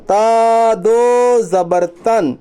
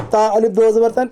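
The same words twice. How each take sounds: First: "تا دو زبر تن" slow, long vowels stretched; drawn-out "تا" and "دو" in "تا دو زبر تن"; straight correct reading. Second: "الف" inserted between "تا" and "دو زبر تن"; "تا الف دو زبر تن" with the extra الف named; wrong reading example. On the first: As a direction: chant "تا دو زبر تن" evenly, no الف. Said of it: "سیدھا پڑھیں گے". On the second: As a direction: say "تا الف دو زبر تن" at talking speed. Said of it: "اس طرح نہیں پڑھیں گے". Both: Shown as a demonstration.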